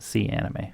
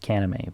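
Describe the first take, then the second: First: The C is said as a separate letter. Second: The C is blended into one word. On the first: "but I think it's a C Anime" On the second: "Maybe it's pronounced Canime"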